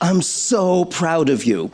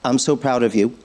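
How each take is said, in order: First: It sounds natural and expressive, like real speech. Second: It sounds flat and robotic, like a synthetic voice. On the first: The person's own recorded voice is speaking the phrase. The speaker calls it right. "as opposed to a banked message" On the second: A computer voice is speaking the phrase. The speaker calls it wrong. "using a synthetic voice that currently ... will sound more like"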